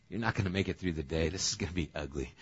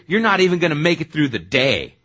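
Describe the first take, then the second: First: Low, quick, understated reply; resigned aside. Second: Loud, high put-down of a disciple; blunt slam. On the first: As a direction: predict failure in a low, rapid undertone. God's weary reply to the vow. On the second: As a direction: slam him loudly in front of everyone. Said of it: "is that getting slammed or what". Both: Acted.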